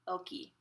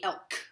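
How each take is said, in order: First: A final vowel is sounded after the k. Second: The word ends on the k sound. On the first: The speaker calls it right. "So please pronounce the E" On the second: The speaker calls it wrong. "Just don't say elk"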